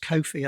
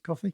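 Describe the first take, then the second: First: It is said unlike the ordinary word coffee. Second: It is said just like the word coffee. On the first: This is how the company names itself. "They call themselves Kofi" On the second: This matches the drink the name is meant to evoke. "it's supposed to be like coffee, so let's pronounce it coffee"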